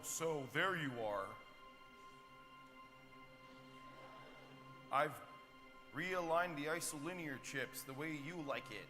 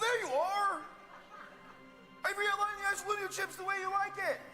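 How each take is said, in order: First: It is said flatly, without much excitement. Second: It is said with passion and excitement.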